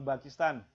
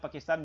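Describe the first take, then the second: First: The word begins with a b sound. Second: The word begins with a p sound. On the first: The speaker calls it wrong. "jangan Pakistan" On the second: The speaker calls it right. "Tetap bacanya Pakistan"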